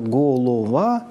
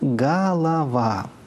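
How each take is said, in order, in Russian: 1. Безударные гласные звучат как полное 'o'. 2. Безударные гласные звучат как редуцированное 'a'. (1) "Мы пишем-то «голова»" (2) "а говорим-то «голова»"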